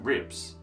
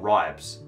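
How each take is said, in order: First: The vowel is a short 'i' sound. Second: The vowel is a long 'eye' sound.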